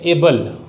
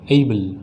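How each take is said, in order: First: एबल as AY-bul, simple long first vowel; common reading. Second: एबल as EY-bl, gliding first vowel; correct pronunciation. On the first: Teacher showing how people read the third word, common reading. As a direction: say एबल with one steady "e" sound. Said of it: "इसको लोग पढ़ते हैं एबल". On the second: Teacher correcting the common reading, correct pronunciation. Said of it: "हालांकि इसको पढ़ा जाता है". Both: Shown as a demonstration.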